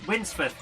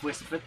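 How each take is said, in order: First: The name has an n before the s. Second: The name has no n before the s. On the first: The speaker calls it right. "Winsforth, not Wisforth" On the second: The speaker calls it wrong. "not Wisforth"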